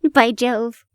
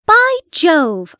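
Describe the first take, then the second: First: Said in the usual way. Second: A raised exclamation of surprise; cried out. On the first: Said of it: "I'm going back to the book". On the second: A narrator's reading. Watson crying out at the coincidence, raised exclaim. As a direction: call it out, struck by the coincidence. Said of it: "I cried".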